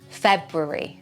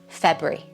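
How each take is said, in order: First: Both R sounds are pronounced clearly. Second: The word is squeezed into two syllables. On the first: "with two R's" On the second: "you can reduce it to two syllables"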